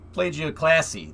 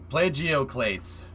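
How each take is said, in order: First: The word ends with a 'classy' sound. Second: The word ends with a 'clase' sound. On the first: The speaker calls it wrong. "That's not how you say that" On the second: The speaker calls it right. "Thank you"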